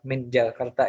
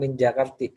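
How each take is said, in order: First: The name ends with an 'a' vowel. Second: The name ends with an 'i' vowel. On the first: The speaker calls it right. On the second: The speaker calls it wrong.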